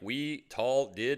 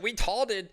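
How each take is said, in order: First: The phrase is said slowly, word by word. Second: The phrase is said quickly, run together.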